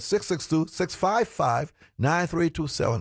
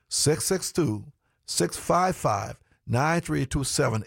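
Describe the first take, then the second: First: The number is read at normal speed. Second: The number is read slowly.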